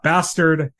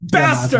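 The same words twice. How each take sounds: First: It is said in a plain, flat way. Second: It is said loudly, like an exclamation.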